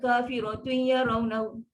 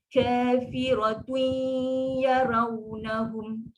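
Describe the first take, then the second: First: The nasal hum is cut short and rushed. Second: The nasal hum is held for two beats. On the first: The speaker calls it wrong. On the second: The speaker calls it right.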